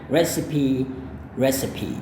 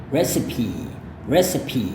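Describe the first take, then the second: Both takes have the same delivery.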